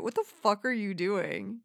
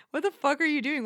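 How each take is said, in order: First: Said in the usual way. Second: Higher, pressing the question harder; exasperated repeat; more emphatic repeat. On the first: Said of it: "repeated louder". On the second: Real, not acted. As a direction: push the second ask up.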